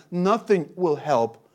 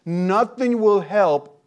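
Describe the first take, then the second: First: Slow emphasis. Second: Nothing will help, slowed right down and leaned on, each word weighted; slower, louder emphasis. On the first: Preacher repeats for emphasis. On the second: Preacher warning the congregation that nothing prolongs life, slow and emphatic. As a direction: drive home "nothing will help" slowly and firmly. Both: Acted.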